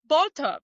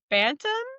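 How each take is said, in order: First: It is said in a put-on English accent. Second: It is said plainly, without a put-on accent.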